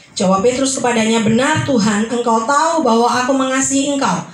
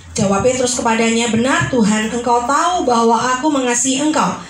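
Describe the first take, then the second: No difference in how they are said.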